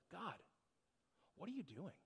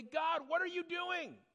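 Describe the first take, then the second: First: Very soft, open question to God; quiet curiosity. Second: High, drawn-out indignant cry; angry at God. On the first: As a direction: ask it gently, with a pause after God. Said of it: "but a position of curiosity". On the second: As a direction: exclaim it with resentment, pitch soaring. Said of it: "You get angry at God". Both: Acted.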